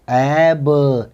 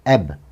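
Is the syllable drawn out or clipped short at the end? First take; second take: drawn out; clipped. First: The syllable is stretched out slowly. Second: The final b sound is said quickly. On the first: The speaker calls it wrong. "खींच के नहीं पढ़ते, ऐब ऐसा नहीं पढ़ना है" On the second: The speaker calls it right. "जो बी की साउंड है उसे जल्दी बोलना है"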